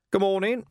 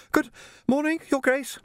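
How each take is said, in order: First: Bright, friendly hello raised high; cheerful greeting. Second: Put-on much higher, polite young Jocasta, a touch breathless; young woman voiced. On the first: A narrator's reading. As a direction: greet her breezily from the pit's edge. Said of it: "he said cheerfully". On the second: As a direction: play a well-mannered girl treading water.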